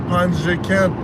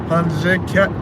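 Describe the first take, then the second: Both takes have the same delivery.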